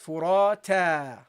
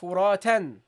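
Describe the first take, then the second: First: The word ends on a vowel, without n. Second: The word ends with an n sound. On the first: The word ends the sentence. "If you end with it, you pronounce it as furata" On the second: The word stands in the middle of a sentence. "In the middle of a sentence, ... then you pronounce it furatan"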